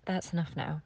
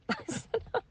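First: Said in the usual way. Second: Higher, laughing through it. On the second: Real, not acted. Mother repeating her plea to the universe, laughing. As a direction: laugh it off after tears.

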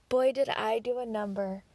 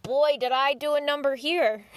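First: Said in the usual way. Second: Big rueful outburst, pitched up; loud rueful exclamation. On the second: Retold or imitated. Reacting to her own bad choice, loud and rueful. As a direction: blurt it out loud, half-laughing at yourself. Self-mocking realization.

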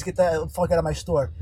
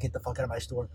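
First: Said in the usual way. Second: Mumbled low and soft, swallowing the words; muffled quiet mumble. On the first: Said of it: "But what I really said was". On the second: Shown as a demonstration. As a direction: mutter it so it's hard to catch. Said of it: "That sounded like".

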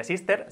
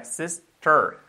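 First: Wrong "sister" with a Spanish full E and tapped R; pronunciación incorrecta. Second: Slow "sister", ending in an English "tər"; pronunciación inglesa. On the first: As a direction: say "sister" quickly as a Spanish word, "sís-ter". ("sister" a la española, como error) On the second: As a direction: split "sister" carefully, vowel melted into the final R. ("sister" lento, con "er" inglesa) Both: Shown as a demonstration. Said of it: "No sería sister".

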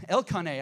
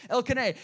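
First: Elkanah with a full "ah" in the middle syllable; mispronounced name. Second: Elkanah with a short, reduced middle vowel; corrected name. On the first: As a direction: say Elkanah as el-KAH-nay. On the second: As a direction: say Elkanah as EL-kuh-nay. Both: Real, not acted. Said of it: "I said it wrong".

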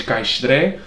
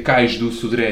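First: "cais Sodré" run together, dropping "do"; swallowed syllables. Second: Said in the usual way. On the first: Shown as a demonstration. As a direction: swallow the middle to a Lisbon "caish-tré" in "cais Sodré". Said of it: "come sílabas em tudo o que é palavra". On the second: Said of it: "que em vez de dizer".

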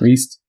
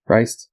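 First: Reist said as "reest", with a long ee; questioning "reest" for Reist; alternative pronunciation. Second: Reist said as "ryst", with a long i; alternative pronunciation. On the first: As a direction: say Reist to rhyme with "priest". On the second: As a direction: say Reist to rhyme with "heist". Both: Shown as a demonstration. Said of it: "Is it Reist or Reist?".

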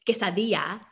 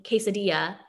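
First: Quesadilla said the native Spanish way; Spanish pronunciation. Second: Quesadilla said the Anglicized way; Americanized pronunciation. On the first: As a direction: say "quesadilla" with authentic Spanish sounds. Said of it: "the way I would say it in Spanish". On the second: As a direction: say "quesadilla" with plain American English sounds. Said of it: "that's how I need to say it so that they understand it". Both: Shown as a demonstration.

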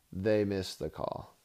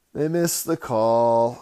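First: Said in the usual way. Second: Louder, slower, hammering it home; emphatic loud repeat. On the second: Shown as a demonstration. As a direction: pound the point with a raised voice.

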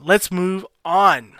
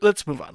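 First: "Let's move on" with "on" stretched long; drawn-out ON. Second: Said in the usual way. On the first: Real, not acted. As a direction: hold the word "on" as a big segue. Repeats it with drawn-out last word.

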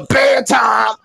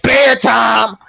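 First: Put-on mother cutting off the child; mama's bedtime order again. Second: Put-on mother ordering the child to bed; mama's bedtime order. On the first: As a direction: bark it just like mama. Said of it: "I be like". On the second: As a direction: shut the kid down like mama. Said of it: "She be like".

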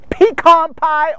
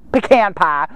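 First: PECAN as pee-KAHN, drawn out and higher; standard pecan. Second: Southern-style pecan, puh-KAN, pitched lower; Southern US pronunciation. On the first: Listing Thanksgiving dishes, pecan stretched as pee-KAHN. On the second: Preacher showing how the South says pecan, Southern accent. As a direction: say "pecan pie" as they do in the South. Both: Shown as a demonstration. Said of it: "or if you're in the South".

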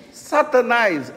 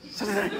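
First: Satanás drawn out slowly and firmly; slow and clear. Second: Rushed and much softer, Satanás thrown away; fast, mumbled. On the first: Shown as a demonstration. Pastor showing teens how to say Satanás openly. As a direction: face the word Satanás, say it plainly and slowly. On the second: Retold or imitated. Pastor imitating teens rushing the name Satanás. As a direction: say Satanás quickly to get it over with. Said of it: "Fala assim bem rápido".

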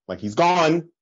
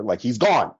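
First: "gone" pushed higher in the repeat; insistent. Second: Said in the usual way. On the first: Retold or imitated. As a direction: press it home, "he's gone". Friend insisting, repeated line.

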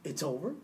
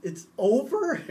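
First: Soft, low "It's over?" in quiet disbelief; quietly can't accept the ending; stunned disbelief. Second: "It's over?" higher and louder, rising in protest; loud outraged disbelief. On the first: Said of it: "I was like". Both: Retold or imitated.

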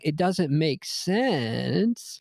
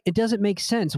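First: Very slow, words stretched out; drawn-out mock protest. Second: Said in the usual way. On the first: Arguing that women's texts baffle him, slow mock protest. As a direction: drag out "sense" with a rising end. Typing out the sentence, exaggerated.

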